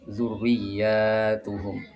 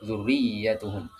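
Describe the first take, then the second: First: The vowel after the y is long. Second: The vowel after the y is short. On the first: The word is plural. "membacanya dengan panjang, dengan jamak" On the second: The word is singular. "iya-nya pendek ya"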